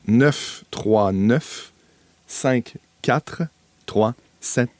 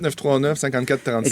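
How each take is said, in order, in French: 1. Les chiffres sont lus lentement et posément. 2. Les chiffres sont lus à un rythme normal.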